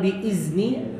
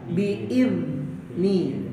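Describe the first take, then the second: First: The middle consonant is a buzzing z sound. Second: The middle consonant is a voiced th sound. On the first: The speaker calls it wrong. "jangan ada aksen Z-nya, jangan biizni" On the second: The speaker calls it right. "Makanya ujung lidahnya sedikit keluar"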